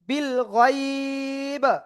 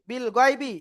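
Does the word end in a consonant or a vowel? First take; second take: consonant; vowel. First: The word ends on a bare consonant. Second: The word ends with a final vowel. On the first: The reader stops at this word. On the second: The reading continues without stopping.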